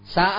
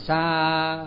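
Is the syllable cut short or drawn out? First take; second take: cut short; drawn out. First: The syllable is cut off short and sharp. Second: The syllable is drawn out long. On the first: The speaker calls it right. "Sa là phải dứt một cái" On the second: The speaker calls it wrong. "chứ không phải sa, ... nó không có kéo dài"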